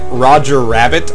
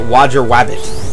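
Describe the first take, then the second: First: The second word begins with a clear R sound. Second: The second word begins with a W sound. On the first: The speaker calls it right. "instead of like Roger Rabbit" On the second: The speaker calls it wrong. "I would say Roger Wabbit"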